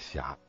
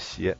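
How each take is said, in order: First: The word is pronounced xiá. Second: The word is pronounced xié. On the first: This is the reading taught in earlier schooling. "你告诉我念狭" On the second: This is the reading in the newest textbooks. "又得改成斜"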